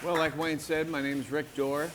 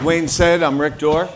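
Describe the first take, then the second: First: Soft, under-projected introduction; too quiet. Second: Louder, projected introduction; speaking up. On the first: Speaker introducing himself to the audience, too quietly. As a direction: introduce yourself too softly to carry. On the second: Speaker repeating his introduction after the host's prompt, speaking up. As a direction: project your name so the room hears. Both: Real, not acted. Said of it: "Speak up, Rick".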